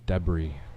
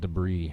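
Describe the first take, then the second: First: It is said with a non-American pronunciation. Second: It is said with an American pronunciation. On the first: The speaker calls it right. "it's debris. And yes, I know Americans pronounce it wrong" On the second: The speaker calls it wrong. "Not debris"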